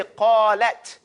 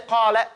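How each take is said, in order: First: "qalat" slower, final t released in a whisper. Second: "qalat" with the final t swallowed; wrong pronunciation. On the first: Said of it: "It whispers". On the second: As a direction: say "qalat" without releasing the t. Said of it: "You don't say qalat". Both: Shown as a demonstration.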